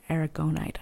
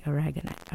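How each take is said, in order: First: "aragonite" said as air-uh-GO-nite; long O in "aragonite", as in GO; penultimate-syllable version. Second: "aragonite" said as uh-RAG-uh-nite; instinctive stress placement. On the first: Reader correcting herself by Latin rule, "aragonite" as air-uh-GO-nite. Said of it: "is actually how it would be". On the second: Reader following instinct about Latin, "aragonite" as uh-RAG-uh-nite. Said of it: "that's why I wanna say". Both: Shown as a demonstration.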